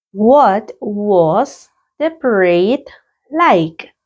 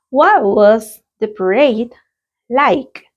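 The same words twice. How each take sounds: First: Very slow, stretched repetition; a drawn-out classroom model question; slow repeat. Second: Slow, clear question for the class; a teacher's clear model question. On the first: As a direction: say it slowly for learners to copy. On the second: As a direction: read it out slowly and clearly. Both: Shown as a demonstration. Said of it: "Let's practice the pronunciation".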